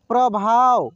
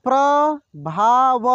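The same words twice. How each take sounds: First: Said in the usual way. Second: प्रभाव drawn out slowly, syllable by syllable; slow sounding out. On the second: Shown as a demonstration. Teacher slowly sounds out प्रभाव for students. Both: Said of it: "एक एक मात्रा को अलग अलग करके".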